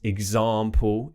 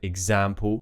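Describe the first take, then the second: First: The stressed vowel is a broad 'ah' sound. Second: The stressed vowel is a flat 'a' sound. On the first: This is the RP way. The speaker calls it right. "example instead of" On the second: This is the non-RP way. The speaker calls it wrong. "instead of example"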